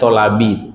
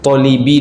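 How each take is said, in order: First: The second vowel is an 'a' sound. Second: The second vowel is an 'i' sound. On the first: The speaker calls it right. "Dia tolabi" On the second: The speaker calls it wrong. "Hadisnya tadi tolibi dibaca"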